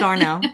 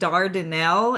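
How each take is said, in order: First: The name is shortened, with the middle dropped. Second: The name is said in full, every syllable. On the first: The speaker is from the area. "It's Darnell" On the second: The speaker is not from the area. "if you were to say Dardanelle, everybody would know you're not local"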